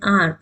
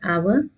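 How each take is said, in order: First: The word sounds like the letter R. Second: The word sounds like 'our'. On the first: The speaker calls it right. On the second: The speaker calls it wrong.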